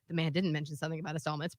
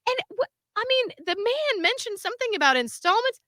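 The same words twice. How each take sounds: First: Low, soft, rushed correction; quick aside. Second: High-pitched imitated caller; smooth phone manner. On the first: Real, not acted. Speaker correcting the caller's claim to listeners, quick aside. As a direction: drop down and slip it in fast. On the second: Person asking company about installments, phone manner. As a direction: hold it up high, politely pressing the point. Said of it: "he's so good on the phone".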